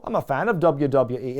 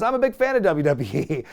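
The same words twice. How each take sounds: First: Irish-sounding take on an English boxer; attempted English accent, sounding Irish. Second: Said in the usual way. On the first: Boxer declaring himself a fan, in an accidentally Irish accent. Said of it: "It sounds Irish. I'll stop the accent". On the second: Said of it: "I'll stop the accent".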